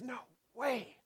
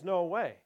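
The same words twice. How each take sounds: First: It sounds humble and full of wonder. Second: It sounds scornful and closed-minded.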